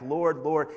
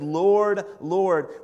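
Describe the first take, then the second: First: Said in the usual way. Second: Loud, high, desperate call of Lord; pleading cry. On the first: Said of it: "When you see those two words back to back". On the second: Acted. Followers begging Jesus on Judgment Day, loud and pleading.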